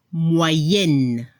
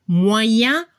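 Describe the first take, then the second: First: MOYENNE with a held final n; feminine French moyenne. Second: MOYEN ending on a nasal vowel, no n; masculine French moyen. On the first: French teacher giving another feminine example, MOYENNE with audible n. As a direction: drop low and close MOYENNE on the n. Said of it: "Se escucha la N al final". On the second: French teacher giving another masculine example, MOYEN ending nasal. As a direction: rise on MOYEN, leaving the n silent. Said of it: "Otro ejemplo". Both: Shown as a demonstration.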